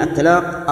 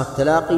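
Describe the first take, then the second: First: "التلاق" closed on the qaf; final ya dropped. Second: "التلاقي" ending in a long ee; original final ya restored. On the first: Teacher naming the shortened form, final ya dropped. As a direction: end "التلاق" on q with no ee after it. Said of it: "وحذفت الياء". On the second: Teacher giving the original form, final ya pronounced. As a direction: sound the ya at the end of "التلاقي". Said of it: "أصلها التلاقي". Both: Shown as a demonstration.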